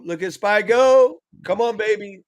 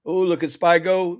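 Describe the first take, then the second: First: Drawn out high and loud; excited. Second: Said in the usual way. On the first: Real, not acted. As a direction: cheer the chart on slowly. Excited at the market.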